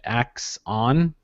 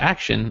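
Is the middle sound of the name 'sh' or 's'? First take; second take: s; sh. First: It sounds like 'ax on', with an 's' sound. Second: It sounds like 'action', with an 'sh' sound. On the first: "people are pronouncing it Ax on" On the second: "I thought it was Action"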